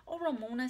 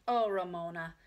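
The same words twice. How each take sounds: First: Higher reproving sigh of a name; exasperated sister. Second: Mild dismay on the name. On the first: Beezus doubts Ramona's claim, higher and exasperated. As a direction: brush off a child's boast. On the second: Beezus sees the steam shovel book, mild dismay. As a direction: let disappointment show a little. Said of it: "whispered Beezus in dismay". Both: A narrator's reading.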